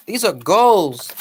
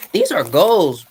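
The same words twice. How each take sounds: First: Slow, weighty stress on goals; slow and deliberate; slow emphatic repeat. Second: Said in the usual way. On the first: Shown as a demonstration. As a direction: drag it out to drive it home.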